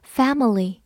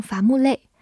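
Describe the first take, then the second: First: "family" with open a, light middle syllable, short -ly; correct English pronunciation. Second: "伐木累" as three Mandarin syllables, fa-mu-lei; Chinese-style mispronunciation. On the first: Teacher models the correction, "family" with English sounds and first-syllable stress. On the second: Teacher shows learners the mistake, "伐木累" in Mandarin syllables. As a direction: say "伐木累" for family, with Mandarin sounds. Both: Shown as a demonstration. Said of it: "提醒大家不要发成伐木累".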